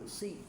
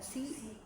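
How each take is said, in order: First: The s sound is heavy and thick. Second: The s sound is light and thin. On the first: The speaker calls it right. "tapi si ya" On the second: The speaker calls it wrong. "hati-hati biasanya dibaca si"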